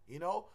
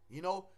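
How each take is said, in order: The two takes are said the same way.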